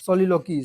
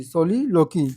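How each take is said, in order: First: Said in the usual way. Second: Soliloquy drawn out in two parts, with a pitch swing; term spelt out emphatically. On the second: Shown as a demonstration. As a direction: repeat "soliloquy" slowly and firmly for students. Teacher repeats the term broken up. ("soliloquy" को तोड़कर, ज़ोर देकर बोलना)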